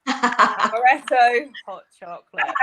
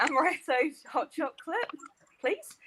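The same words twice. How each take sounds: First: Slow, loud mock German accent; hammed-up German accent, amused. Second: Put-on tentative German-accented order, raised pitch; quiet, higher mock German accent; best German accent. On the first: Shown as a demonstration. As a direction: order slowly and loudly in German-accented English. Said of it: "we wanna hear it in the, with the German accent". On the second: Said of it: "on my best German accent".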